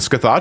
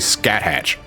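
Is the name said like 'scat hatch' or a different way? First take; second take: different way; scat hatch. First: The name is not said like 'scat hatch'. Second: The name is said like 'scat hatch'. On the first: The speaker calls it right. "Scathach sounds correct" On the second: The speaker calls it wrong. "I used to say scat hatch"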